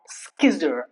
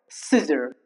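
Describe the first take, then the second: First: The C is sounded as K after the S. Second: The C is silent, starting with an S sound. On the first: The speaker calls it wrong. "not skizzer" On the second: The speaker calls it right. "The C remains silent when C comes after the letter S"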